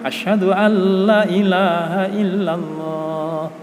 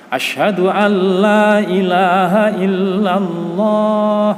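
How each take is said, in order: First: The vowel in 'la' is cut short. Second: The vowel in 'la' is held for two beats. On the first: It comes to mean truly there is a god besides God. The speaker calls it wrong. "Kalau tidak panjang ya, jangan sampai" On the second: It means there is no god but God. The speaker calls it right. "tidak sampai lima, tapi cukup dua harokat"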